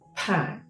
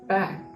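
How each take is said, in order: First: The first p has a strong puff of air. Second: The first p has no puff of air. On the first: "I'm going to pronounce an aspirated sound and a non-aspirated sound together" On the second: "the second one, which I have pronounced was non-aspirated"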